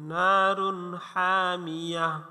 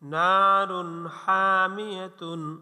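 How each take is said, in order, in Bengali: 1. শেষ শব্দটি ছোট হয়ে -a দিয়ে শেষ হয়েছে। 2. শেষ শব্দটি পূর্ণ -tun দিয়ে শেষ হয়েছে।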